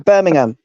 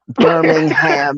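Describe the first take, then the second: First: It is said the British way. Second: It is said the American way. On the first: The speaker calls it right. "we say Birmingham" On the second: The speaker calls it wrong. "when we hear you lot say Greenwich and Birmingham"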